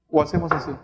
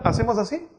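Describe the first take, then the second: First: "¿O hacemos así?" ends on a firm fall; "así" falling, settled and certain; falling tune. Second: "¿hacemos así?" ends on a question rise; the wrong way to affirm, lifting the end; "así" rising like a question; rising tune. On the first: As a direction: affirm it, bring "así" down. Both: Shown as a demonstration. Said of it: "Cuando queremos afirmar".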